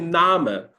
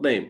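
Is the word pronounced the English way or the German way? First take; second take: German; English. First: It is said with a German pronunciation. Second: It is said with an English pronunciation. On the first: The speaker calls it right. "You just say Name" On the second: The speaker calls it wrong. "not name"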